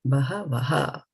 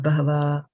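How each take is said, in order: First: The final 'ha' sound is clearly sounded. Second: The final 'ha' sound is dropped. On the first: The speaker calls it right. "give it your full strength here" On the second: The speaker calls it wrong. "It's not bahava"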